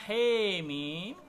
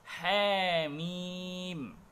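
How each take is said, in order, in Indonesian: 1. Vokal pertama bergeser kuat ke 'e'. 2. Vokal pertama bergeser hanya sedikit ke 'e'. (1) "dengan mengimalahkan huruf H di imalah kubro" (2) "dengan imalah yang kecil, yang ringan"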